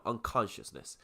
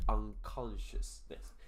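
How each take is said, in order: First: Said in the usual way. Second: "unconsciousness" drawn out slowly, part by part; slow enunciation. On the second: Shown as a demonstration. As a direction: stretch out "unconsciousness" with small breaks between parts. Word repeated slowly for the learners.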